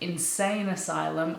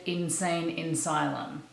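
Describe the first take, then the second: First: The second word begins with an 'a' sound. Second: The second word begins with an 'in' sound. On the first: The speaker calls it right. "Instead of insane asylum" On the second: The speaker calls it wrong. "I said insane insylum"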